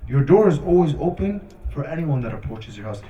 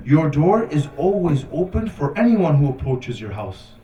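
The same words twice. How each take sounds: First: Said in the usual way. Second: Emphatic, measured line of verse; poetry recitation. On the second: Retold or imitated. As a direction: recite it with weight on the key words. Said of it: "he says a line of poetry".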